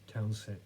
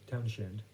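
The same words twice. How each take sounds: First: "[name]" with a plain s, no sh; slurred surname. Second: "[name]" with a clear sh; corrected surname. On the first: Speaker fumbling a songwriter's name, "[name]" without the sh. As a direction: say "[name]" as "Town-sen", cut short. Stumbles on a surname, then corrects. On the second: Speaker correcting a songwriter's name, "[name]" with clear sh. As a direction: say "[name]" as "Town-shand", both syllables full. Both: Real, not acted.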